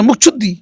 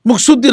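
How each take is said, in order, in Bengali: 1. মধ্যের ব্যঞ্জনটি একটি আসপিরেটেড chh ধ্বনি। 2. মধ্যের ব্যঞ্জনটি সাধারণ s ধ্বনি। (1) "ছ" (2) "মুকসুদ্দি না"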